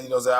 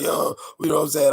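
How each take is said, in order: First: A touch of the hype rapper voice; slightly lifted hype delivery; mild hype ad-lib voice; light hype voice. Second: High, loud hype-man call; hype rapper voice. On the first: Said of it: "I can do my voice like". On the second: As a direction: pump it up like a hook ad-lib. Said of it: "I'm like". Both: Shown as a demonstration.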